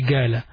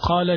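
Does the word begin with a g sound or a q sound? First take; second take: G sound; Q sound. First: The word begins with a g-like sound. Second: The word begins with a deep q sound. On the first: "they're pronouncing it sometimes غا" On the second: "Instead of saying قال"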